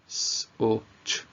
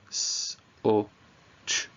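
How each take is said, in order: First: The sounds are said quickly, close together. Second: The sounds are said slowly, spaced apart.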